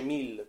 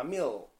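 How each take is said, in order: First: "mill" with a clear Italian L; pronuncia all'italiana. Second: "mill" with a dark English L, not the Italian one; L scura all'inglese. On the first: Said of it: "come diciamo noi italiani". ("mill" con la L chiara, all'italiana) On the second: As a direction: darken the I and the L in "mill". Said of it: "la L si scurisce". ("mill" con I e L scurite, all'inglese) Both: Shown as a demonstration.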